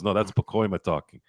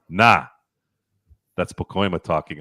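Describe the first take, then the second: First: The first word is a clear, full no. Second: The first word is a casual, drawn nah. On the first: The speaker calls it wrong. "And he goes" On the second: The speaker calls it right. "Actually, no, he said it like this"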